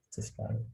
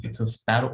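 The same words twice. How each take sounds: First: Put-on softer, tender "It's a sparrow" as to a small child; tender answer. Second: A retold, mildly exasperated "It's a sparrow"; mock irritated son. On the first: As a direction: say "It's a sparrow" gently, like soothing a four-year-old. Father reading diary, gave hug and kiss. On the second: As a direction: snap "It's a sparrow" at dad with mock impatience. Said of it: "He screamed at his father".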